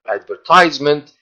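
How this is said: The word has an American pronunciation. "in the American pronunciation"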